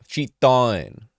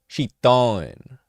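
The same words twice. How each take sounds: The two takes are said the same way.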